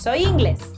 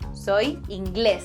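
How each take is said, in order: First: The stress is on the first syllable of inglés. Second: The stress is on the last syllable of inglés. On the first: It refers to the groin area. The speaker calls it wrong. "not soy inglés" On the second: The speaker is English. The speaker calls it right. "that little accent mark indicates that that vowel has to be stressed"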